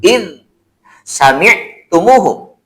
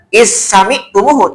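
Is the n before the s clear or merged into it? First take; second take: clear; merged. First: The n is pronounced clearly before the s. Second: The n merges into the following s sound. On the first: The speaker calls it right. "tapi in sami'tumuhu" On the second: The speaker calls it wrong. "tidak dibaca"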